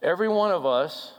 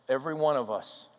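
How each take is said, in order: First: Louder, with ONE lifted and stressed in "Every one of us"; emphatic. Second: Said in the usual way. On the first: Acted. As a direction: stress "one" with a rising call.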